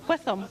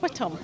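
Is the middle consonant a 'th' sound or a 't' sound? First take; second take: th; t. First: The middle consonant is a 'th' sound. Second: The middle consonant is a plain 't' sound. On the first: This is how the family says the name. The speaker calls it right. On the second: This is how others usually say the name. The speaker calls it wrong. "not Whittam, as you keep saying"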